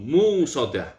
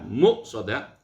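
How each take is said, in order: First: A w sound follows the m sound. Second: A glottal stop follows the m sound. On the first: "Wabil wawi, dan qiraat kedua setelah mim setelah mim hurufnya wawu" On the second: "Bil hamzi dengan hamzah, maksudnya setelah mim hurufnya hamzah"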